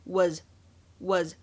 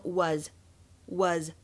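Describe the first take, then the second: First: "was" said the British way, with a short rounded vowel; British English "was". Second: "was" slow, with a long open forward vowel and the mouth wide open; American English "was", overdone for teaching; exaggerated American was. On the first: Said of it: "在英式发音当中读作". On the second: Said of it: "这个单词会读得非常的夸张". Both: Shown as a demonstration.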